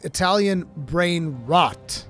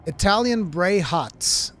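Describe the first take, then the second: First: The last words sound like 'brain rot'. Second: The last words sound like 'bray hots'. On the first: The speaker calls it right. "That's what it is" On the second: The speaker calls it wrong. "he didn't even know how to pronounce it"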